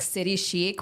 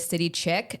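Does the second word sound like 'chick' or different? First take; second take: Different; Chick. First: The second word does not sound like 'chick'. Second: The second word sounds like 'chick'. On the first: This is the brand's intended name. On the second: This is how most people would say it.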